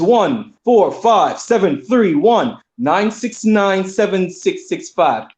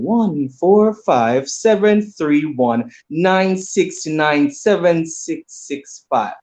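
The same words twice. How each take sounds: First: The number is read fast. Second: The number is read slowly.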